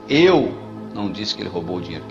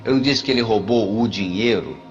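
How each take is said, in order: First: The stress is on "Eu". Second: The stress is on "dinheiro".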